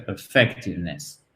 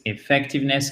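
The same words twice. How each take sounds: First: "effectiveness" begun with a neutral uh; opening schwa. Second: "effectiveness" begun with a French é; opening é sound. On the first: Teacher showing the less preferred version, weak uh opening "effectiveness". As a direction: say "effectiveness" as uh-FEC-tiveness. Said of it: "c'est plus comme un E accent aigu". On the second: Teacher showing the preferred version, é at the start of "effectiveness". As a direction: say "effectiveness" as é-FEC-tiveness. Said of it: "C'est beaucoup plus effectiveness que". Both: Shown as a demonstration.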